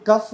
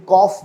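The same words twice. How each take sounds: First: कफ said kuf with a short uh vowel; the mistaken कफ, kuf as in cup; wrong pronunciation. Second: कॉफ said kof with the open o of hot; correct pronunciation. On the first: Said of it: "ये कफ नहीं बोला जाता". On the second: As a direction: model word कॉफ, the vowel of hot and pot. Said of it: "इसमें अ sound आती है, जैसे हॉट में". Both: Shown as a demonstration.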